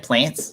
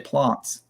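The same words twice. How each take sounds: First: It is said with a non-South Australian pronunciation. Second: It is said with a South Australian pronunciation. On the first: "in South Australia, you don't say plants" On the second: "you say plants"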